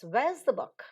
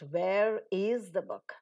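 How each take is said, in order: First: The words 'where is' are contracted to 'where's'. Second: The words 'where is' are said in full. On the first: The speaker calls it right. "but it's" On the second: The speaker calls it wrong.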